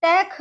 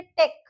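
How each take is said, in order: First: टेक as "take-h", final h sounded; mispronounced word. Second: Said in the usual way. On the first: Shown as a demonstration. Teacher showing what not to say, टेक ending in breathy kh. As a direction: puff an aspirated kh at the end of टेक. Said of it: "नहीं बोलते हम इसको". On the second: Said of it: "क्या pronounce करेंगे".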